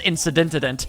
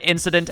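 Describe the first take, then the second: First: The word ends with an extra '-ant' sound. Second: The word ends with the sound '-dent'. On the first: The speaker calls it wrong. "I just said incident as incidentant, which isn't how you say it at all" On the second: The speaker calls it right. "which isn't how you say it at all"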